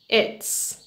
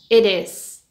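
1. Se dice como una sola sílaba contraída. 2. Se dice como dos palabras completas.

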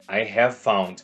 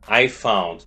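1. A palavra have é pronunciada por completo. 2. O som do v se funde com found. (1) "Esse v é abreviação de have" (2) "Então vai ficar I found. Tudo de uma vez"

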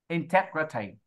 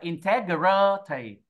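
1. Âm 'gr' ở giữa ngắn và nhẹ. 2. Âm 'gr' ở giữa được kéo dài ra.

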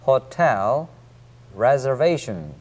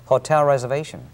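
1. 두 단어는 따로, 끊어서 발음해요. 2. 끝의 가벼운 l이 r과 이어져요. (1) "하나씩 끊어서 읽는다면" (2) "hotel reservation 이렇게 발음되고 있습니다"

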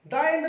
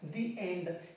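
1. 'The' में छोटा 'uh' स्वर बोला जाता है। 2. 'The' में लंबा 'ee' स्वर बोला जाता है। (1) "द एंड नहीं होता"

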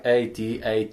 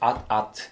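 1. Każda litera jest wymawiana osobno, jako inicjały. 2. Czyta się to jako dwa krótkie słowa. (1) "jakby to była kropka A.T, kropka A.T" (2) "A to się jest AT-AT"

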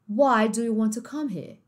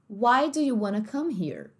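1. O r no final de here é omitido. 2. O r no final de here é pronunciado.

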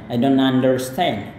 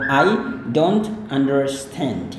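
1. Diucapkan cepat dan lancar. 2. Diucapkan pelan, kata demi kata. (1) "lancar lancarin" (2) "yang biasa"

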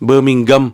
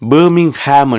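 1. கடைசி அசை குறைந்த 'um'. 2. கடைசி அசை முழுமையான 'ham'. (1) "நீங்கள் பேர்மிங்கம் என்று சொல்லணும்" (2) "இது ஹாம் எல்லாம் கிடையாது"

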